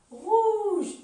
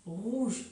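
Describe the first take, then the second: First: Rouge with its opening R hit hard, high and loud; stressed first sound. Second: Said in the usual way. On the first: Shown as a demonstration. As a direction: punch the R at the start of Rouge. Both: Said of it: "on travaille l'attaque du mot".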